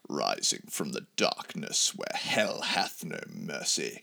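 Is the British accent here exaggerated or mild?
exaggerated. It is read with a dramatic, heavy British accent.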